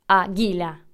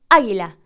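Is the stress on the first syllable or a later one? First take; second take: later; first. First: The stress is on a later syllable. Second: The stress is on the first syllable. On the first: The speaker calls it wrong. "no decimos águila o águila" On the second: The speaker calls it right. "Nosotros decimos águila"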